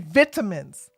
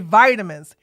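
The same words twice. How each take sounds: First: It is said in a British accent. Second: It is said in an American accent. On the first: "In the U K, they say" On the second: "In America, we say"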